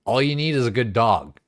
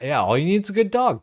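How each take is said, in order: First: Said in the usual way. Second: Loose, fast, higher imitation of an Irish farmer's accent; hammed-up Irish farmer lilt, quickly; mock Irish farmer accent. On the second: Streamer repeats the Irish farmer's line, in a mock Irish accent. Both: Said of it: "Irish farmer's glorious accent".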